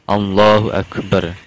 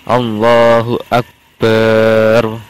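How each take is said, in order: First: The vowel after b in Akbar is short. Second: The vowel after b in Akbar is drawn out. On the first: The speaker calls it right. "harus Allahnya dulu baru Akbar" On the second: The speaker calls it wrong. "tidak boleh memanjangkan baknya lafal akbar"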